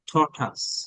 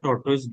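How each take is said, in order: First: The second syllable sounds like 'tuss'. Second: The second syllable sounds like 'toys'. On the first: The speaker calls it right. "উচ্চারণটা তারা বলে" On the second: The speaker calls it wrong. "আমরা টর্টয়েস বলি অনেক ক্ষেত্রে"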